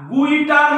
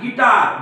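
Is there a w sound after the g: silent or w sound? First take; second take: w sound; silent. First: A w sound follows the g. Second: No w sound follows the g. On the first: The speaker calls it wrong. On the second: The speaker calls it right.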